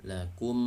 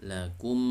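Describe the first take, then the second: Both takes have the same delivery.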